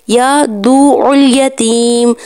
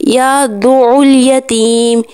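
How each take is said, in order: Both takes have the same delivery.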